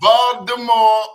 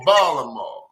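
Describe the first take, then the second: First: The middle consonant is a d sound. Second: The middle consonant is left out entirely. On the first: "the T's either going to be a D" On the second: "or there's going to be no consonant at all"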